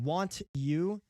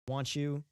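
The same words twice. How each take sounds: First: The t and y sounds stay separate. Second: The t and y blend into ch. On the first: "instead of saying want you" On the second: "like with a, t- with a C H"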